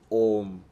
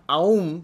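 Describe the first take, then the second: First: The vowel is one steady O sound. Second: The vowel glides from A to U. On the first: The speaker calls it right. "but it's Om" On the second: The speaker calls it wrong. "it's not Aum"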